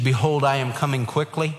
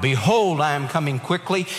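First: Said in the usual way. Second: Belted out. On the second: Retold or imitated. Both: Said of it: "he belted it out".

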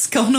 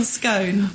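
First: "scone" with a short o; "scone" with the clipped o of "on". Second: "scone" with a long o. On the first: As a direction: say "scone" to rhyme with gone. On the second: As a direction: say "scone" to rhyme with bone. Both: Shown as a demonstration. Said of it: "How do you say it".

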